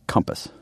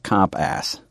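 First: The second syllable is short and reduced. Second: The second syllable is a full 'ass' sound. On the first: The speaker calls it right. "instead of compass" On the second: The speaker calls it wrong. "You pronounce it sort of like comp ass"

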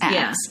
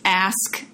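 First: The word ends with a 'ks' sound. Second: The word ends with an 'sk' sound. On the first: "Sounds like A-X" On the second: "It's ask"

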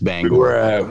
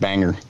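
First: The second syllable is a full 'gore' sound. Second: The second syllable is a weak 'er' sound. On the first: This is how locals say the name. The speaker calls it right. "It's Bangor" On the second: This is how outsiders say the name. The speaker calls it wrong. "they call it Banger"

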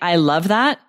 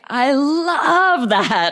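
First: It is said flatly, with little pitch movement. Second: It is said expressively, with lively pitch movement. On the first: The speaker calls it wrong. "If you're going to say" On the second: The speaker calls it right. "you want to say, ... Really emphasize that intonation"

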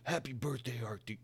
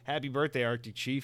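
First: It is said in a gruff Duke Nukem-like voice. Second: It is said in his own normal voice.

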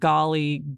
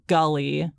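First: The first vowel sounds like the one in 'hot'. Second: The first vowel sounds like the one in 'hut'. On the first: "the word golly" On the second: "Michelle Trachtenberg pronounces the word golly, gully"

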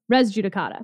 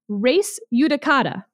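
First: The J is said as an English J sound. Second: The J is said as a Y sound. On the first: This is how lawyers usually say it. The speaker calls it wrong. "I think that I was saying res judicata" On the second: This is the classical Latin pronunciation. The speaker calls it right. "it should be res judicata, something not a single lawyer has ever pronounced it as"

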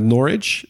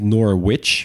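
First: The middle w is silent. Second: The middle w is pronounced. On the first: The speaker calls it right. "We beginnen inderdaad met Norwich" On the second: The speaker calls it wrong. "Dus inderdaad niet Norwich, behalve als je iedereen boos wil maken"

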